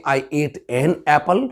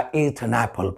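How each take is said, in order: First: Indian English. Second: Soft, lower British English, "an apple" run together as "a napple"; British English accent, quietly. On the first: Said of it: "हम और आप बोलते हैं". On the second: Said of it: "और वो लोग बोलते हैं". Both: Shown as a demonstration.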